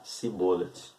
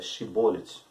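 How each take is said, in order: First: The word begins with an s sound. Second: The word begins with a sh sound. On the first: This is how a rival tribe said the word. "os Efraimitas... Eles irão pronunciar Sibolet" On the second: This is how one tribe said the word. "a tribo de Gade... irá expressar uma palavra"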